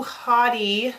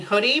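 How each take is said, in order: First: "haughty" with an open AW first vowel; misspelling read literally. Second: "hoodie" with the short vowel of good; corrected word. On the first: Acted. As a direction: say "haughty" like HAW-dee. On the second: Real, not acted. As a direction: say "hoodie" like HUD-ee, rising as a question. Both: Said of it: "don't you mean hoodie?".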